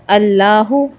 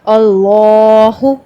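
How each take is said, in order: First: The L sound is cut short. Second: The L sound is stretched out long. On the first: The speaker calls it wrong. "It is not like this" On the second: The speaker calls it right. "खींच के पढ़ना है"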